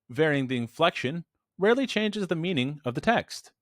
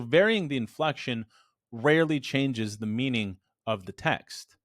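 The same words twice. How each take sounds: First: The pitch moves in an unusual, varied pattern. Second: The pitch follows a plain statement pattern.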